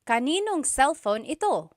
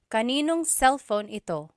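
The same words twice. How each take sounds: First: Kanino and ang merge and na is dropped. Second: Kanino and ang merge and na is dropped.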